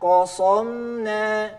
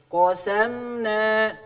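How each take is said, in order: First: Kosomna said very slowly with a dark, thick sin like sod; heavy sin like sod. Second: Kosamna said very slowly with a thick, raised sin; slow careful tajwid. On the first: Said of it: "siga sod". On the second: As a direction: drawl out kosamna with a heavy sin. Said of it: "baca sinnya jadi tebal". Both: Shown as a demonstration.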